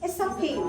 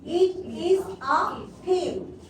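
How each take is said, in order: First: The words are linked, with the t silent. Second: Each word is said fully and separately. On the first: "Connected speech ... So we can make this T silent"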